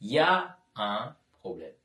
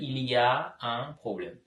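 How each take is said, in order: First: The phrase is shortened, with il y a as ya. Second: The full phrase is said, including il y a. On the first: This is the casual spoken form. "பேச்சு வழக்கில் யா un problème" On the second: This is the written form. "எழுதும் பொழுது"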